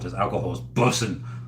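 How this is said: It sounds relaxed, casual and natural. A young person uses the slang naturally. The speaker calls it right. "the way it's in, in, intended"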